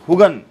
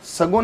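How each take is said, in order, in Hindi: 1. शब्द h की आवाज़ से शुरू होता है। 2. शब्द s की आवाज़ से शुरू होता है। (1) "सगुन को मैं बोलता हूं हुगन" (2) "सगुन है"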